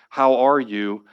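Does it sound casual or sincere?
sincere. It sounds sincere and earnest.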